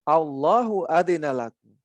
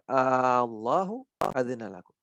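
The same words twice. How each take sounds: First: The first vowel of Allahu is kept short. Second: The first vowel of Allahu is drawn out long. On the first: It states that God has given permission. The speaker calls it wrong. "Kalau dibaca pendek artinya" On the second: It asks whether God has given permission. The speaker calls it right. "Karena A-nya itu bergabung, jadi panjang"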